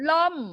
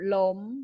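First: The word is said with a falling tone. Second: The word is said with a high tone. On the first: "เสียงโทของอักษรต่ำจะเป็นวรรณยุกต์เอก" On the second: "เสียงตรีจะมีวรรณยุกต์โท"

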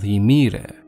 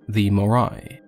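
First: The name is said with a Greek pronunciation. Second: The name is said with an anglicized pronunciation.

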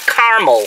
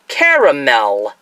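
First: The word is said with two syllables. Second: The word is said with three syllables. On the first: The speaker calls it wrong. "not caramel" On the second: The speaker calls it right. "Three syllables"

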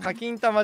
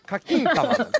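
First: The pitch stays level on the syllable 'kin'. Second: The pitch rises on the syllable 'kin'. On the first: The speaker calls it wrong. "課金玉じゃなくて" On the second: The speaker calls it right. "そこで上がるん"

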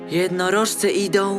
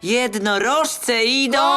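First: It is said in an ordinary, everyday way. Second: It is proclaimed loudly like a herald's announcement. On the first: The speaker calls it right. "Powiedz to zwyczajnie" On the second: The speaker calls it wrong. "Nie jesteś heroldem. Powiedz to zwyczajnie, nie wygłaszaj"

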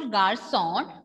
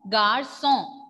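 First: The final n is clearly pronounced. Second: The final n is silent. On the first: The speaker calls it wrong. "This is not garçon" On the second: The speaker calls it right. "N will be silent"

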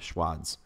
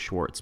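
First: The name is said without an R sound. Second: The name is said with an R sound. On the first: The speaker calls it right. "but there's no R" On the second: The speaker calls it wrong. "I thought it was Schwartz"

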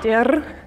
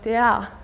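First: The ending has a consonant R sound. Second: The ending is a vowel between A and E. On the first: The speaker calls it wrong. "or der" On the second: The speaker calls it right. "but der"

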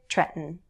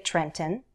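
First: The middle t is a glottal stop. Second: The middle t is a clearly released t. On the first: "Most Americans will use a glottal stop" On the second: "You could say Trenton"

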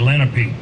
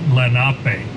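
First: The name is said the common local way. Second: The name is said the tribe's own way. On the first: This is how people in the area say it. The speaker calls it wrong. "around here, they'll say Lenape" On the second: This is how the tribe itself says it. The speaker calls it right. "the correct pronunciation is Lenape"

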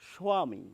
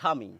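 First: A w sound follows the initial s. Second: No w sound follows the initial s. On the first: This is an old rural pronunciation. "তারা বলে থাকেন স্বামী। এই যে স্বামী, ওয়া ওয়া ওয়া ধ্বনিটা" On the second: This is the standard pronunciation. "বাংলা প্রমিত উচ্চারণে এই বয়ের উচ্চারণ করি না, আমরা বলি স্বামী"

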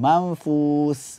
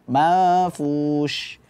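First: The final consonant is a plain 's' sound. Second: The final consonant is a spread 'sh' sound. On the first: The speaker calls it wrong. "tertukar dengan sin. Mafus, enggak" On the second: The speaker calls it right. "huruf shin ini dia bersifat tafashi, menyebarnya nafas"

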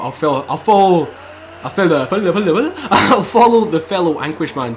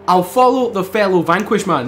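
First: The words are slurred and not said cleanly. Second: The words are said cleanly and clearly. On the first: The speaker calls it wrong. "I didn't even say that right" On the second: The speaker calls it right. "There we go. That's it"

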